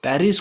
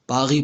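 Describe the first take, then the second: First: "पेरिस" with tongue r and sounded final s; usual reading. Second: "पागी" with throaty r and silent final s; French pronunciation. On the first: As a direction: say "पेरिस" as in English. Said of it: "पेरिस को French में". ("पेरिस" आम ढंग से, र और स साफ़) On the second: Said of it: "French में पागी पढ़ा जाता है". ("पागी" फ्रेंच ढंग से, गले का ग़, आख़िरी स ख़ामोश) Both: Shown as a demonstration.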